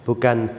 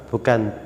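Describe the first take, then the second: No difference in how they are said.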